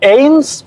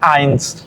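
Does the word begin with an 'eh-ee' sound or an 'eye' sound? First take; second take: eh-ee; eye. First: The vowel is said as separate 'e' and 'i'. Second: The vowel is said like 'ai' as in 'eye'. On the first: The speaker calls it wrong. "Se escribe como eins" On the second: The speaker calls it right. "pero se pronuncia eins"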